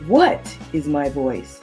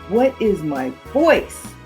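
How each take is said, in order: First: The word 'what' is emphasized. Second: The word 'voice' is emphasized. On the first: "place emphasis on just the first word" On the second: "and finally, the last word"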